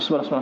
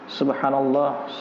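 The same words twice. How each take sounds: First: It is said quickly and indistinctly. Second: It is said slowly and clearly. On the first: It is said carelessly, without devotion. The speaker calls it wrong. "Tidak jelas ucapannya" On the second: It is said with devotion. The speaker calls it right. "dengan khusyuk, dengan pelan"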